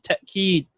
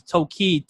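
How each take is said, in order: First: Ta'keed with a clean glottal stop before keed; corrected Arabic pronunciation. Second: Tawkeed with a plain w glide, no glottal stop. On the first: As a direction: break ta'keed into ta, a catch, then keed. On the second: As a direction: say tawkeed as taw-keed, rounded w in the middle. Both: Shown as a demonstration.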